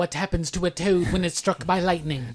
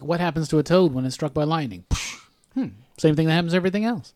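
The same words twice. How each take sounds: First: Mock movie-line delivery, slightly theatrical; film line delivered wrong. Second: Offhand take on a film line, quick throwaway punchline; casual imitation of the intended delivery. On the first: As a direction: quote it as one long dramatic line. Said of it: "she delivered the line wrong". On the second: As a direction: set up the joke, pause, then toss off the answer. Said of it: "she was supposed to be like".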